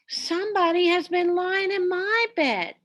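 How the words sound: It is said in a middle-sized voice.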